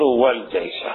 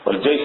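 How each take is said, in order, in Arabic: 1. تنتهي الكلمة بحركة 'a'. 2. تنتهي الكلمة بحركة 'u'. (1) "هكذا بالنصب" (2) "بالرفع"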